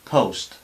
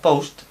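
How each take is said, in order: First: The p is said with a puff of air. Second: The p is said without a puff of air. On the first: The speaker calls it right. "sino post. Soltamos un poco de aire" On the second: The speaker calls it wrong. "no sería post"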